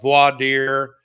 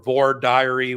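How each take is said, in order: First: The last word sounds short, like 'deer'. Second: The last word has extra syllables, like 'diary'. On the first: This is the usual New York form. The speaker calls it right. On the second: This is a Southern regional form. The speaker calls it wrong.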